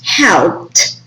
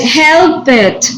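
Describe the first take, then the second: First: The ending is a plain T sound. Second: The ending is an extra syllable. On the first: The speaker calls it right. "You should pronounce the T sound" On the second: The speaker calls it wrong. "No puedes help it, no"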